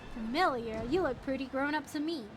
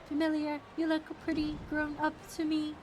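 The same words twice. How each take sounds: First: It is read in a natural voice. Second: It is read in a put-on character voice.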